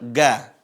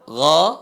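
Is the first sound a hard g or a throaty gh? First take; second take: hard g; throaty gh. First: It starts with a hard stopped g sound. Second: It starts with a rough throaty friction sound. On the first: The speaker calls it wrong. "Bukan dibaca dengan ga" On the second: The speaker calls it right. "Cara baca yang benar adalah bagaimana?"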